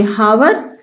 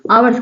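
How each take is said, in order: First: हावर्स with H at the start, rising; wrong sounded H. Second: आवर्स with a vowel at the start; silent H. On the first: Teacher repeats the mistake to reject it, हावर्स with H. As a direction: put an H on हावर्स. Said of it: "नहीं कहेंगे". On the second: Teacher repeats the correct word, आवर्स with silent H. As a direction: begin आवर्स on आ, no H. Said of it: "आवर्स कहेंगे". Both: Shown as a demonstration.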